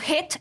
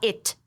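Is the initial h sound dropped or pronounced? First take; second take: pronounced; dropped. First: It begins with an audible h sound. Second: It begins directly with the vowel.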